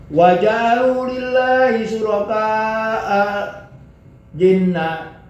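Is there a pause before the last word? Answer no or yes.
yes. There is a break before the last word. The speaker calls it wrong.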